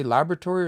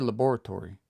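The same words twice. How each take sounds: First: Laboratory with LAB stressed, bor reduced. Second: Laboratory as la-BOR-atory; stress on BOR in laboratory. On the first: Teacher asks which way you say laboratory, first syllable stressed. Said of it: "I would put the stress here". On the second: Teacher offers the other way to say laboratory, second syllable stressed. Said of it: "Do you say laboratory or laboratory?". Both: Shown as a demonstration.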